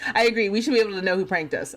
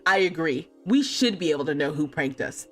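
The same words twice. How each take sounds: First: It is read in a plain, neutral tone. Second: It is read in a vengeful, revenge-seeking tone.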